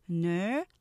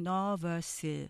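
First: The word is said in two syllables, first stressed. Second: The word is said with three even syllables. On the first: The speaker calls it right. "실제로는 nervous, 2음절로 하면서 앞에 액센트가 강조돼요" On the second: The speaker calls it wrong. "우리가 보통 nervous, 이게 3음절로 하시겠지만"

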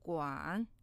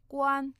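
First: The pitch dips low and then rises. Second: The pitch stays high and level. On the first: It is the syllable in the word for butler. "그런데 집사의 관은요" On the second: It is the syllable meaning to look after. "지금 보살피다 앞에 관는요, 일성"

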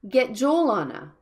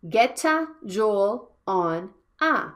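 First: Get links straight into Joel without a vowel. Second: An extra vowel sound follows the word get. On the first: The speaker calls it right. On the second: The speaker calls it wrong. "not getta Joel on a"

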